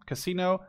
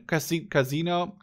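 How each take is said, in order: First: "casino" with an S, kuh-SEE-no; pronunciation try. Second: "casino" with a Z, ka-ZEE-no; pronunciation try. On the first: Vlogger unsure how to say the word, testing "casino" with S. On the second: Vlogger unsure how to say the word, testing "casino" with Z. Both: Shown as a demonstration. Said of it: "say it with a Z or an S".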